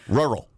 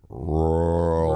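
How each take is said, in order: First: The word is said quickly. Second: The word is said very slowly.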